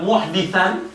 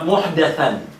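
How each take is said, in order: First: The second syllable has the vowel 'i'. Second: The second syllable has the vowel 'a'. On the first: The person shelters a criminal. "Ada yang membaca dengan kalimat muhditsan" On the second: The person shelters a religious innovator. "ada yang membaca dengan kalimat muhdatsan"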